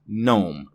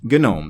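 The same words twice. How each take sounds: First: The initial G is silent. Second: The initial G is sounded. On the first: It names the ordinary English word. "The G is silent" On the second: It names the desktop environment. "It is, in fact"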